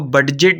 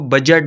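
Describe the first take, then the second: First: A separate d sound is said before the j. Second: No separate d sound is said before the j. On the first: The speaker calls it wrong. "हम इसको बडजेट नहीं बोलेंगे" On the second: The speaker calls it right. "इसमें डी silent है, हम इसको बजट बोलेंगे"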